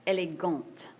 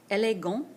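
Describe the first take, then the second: First: Élégante said with the final t sounded; feminine form. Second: Élégant said ending on the nasal vowel, no t sound; masculine form. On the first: Teacher contrasting masculine with feminine: feminine form. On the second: Teacher contrasting masculine with feminine: masculine form. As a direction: stop Élégant on the nasal an, with no final t. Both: Shown as a demonstration.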